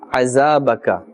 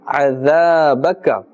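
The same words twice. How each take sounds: First: The word begins with a z sound. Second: The word begins with a soft th sound. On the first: The speaker calls it wrong. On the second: The speaker calls it right.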